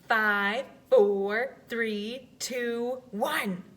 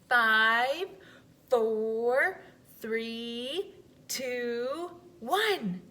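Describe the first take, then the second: First: The countdown is a little faster. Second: The countdown is at a slower pace.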